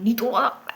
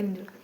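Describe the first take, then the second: First: Mock menacing echo, stick in hand; imitating mom repeating the denial as a threat. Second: Much softer, timid little answer; scared reply. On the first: Mom holding a stick, daring daughter to lie. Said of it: "mummy ने वो डंडा ऐसे कहा". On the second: Retold or imitated. Daughter answering angry mom, softly and scared. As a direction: shrink away, frightened. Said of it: "मैं थोड़ी घबरा गई".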